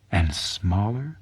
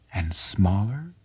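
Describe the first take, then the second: No difference in how they are said.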